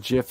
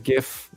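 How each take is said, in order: First: The word starts with a J sound. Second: The word starts with a hard G sound. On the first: The speaker calls it wrong. "it's not a GIF" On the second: The speaker calls it right. "There's no J in this motherfucker"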